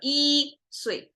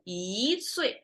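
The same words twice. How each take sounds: First: The first syllable is said with a flat tone. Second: The first syllable is said with a rising tone. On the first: The speaker calls it wrong. "instead of" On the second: The speaker calls it right. "So you rise it up"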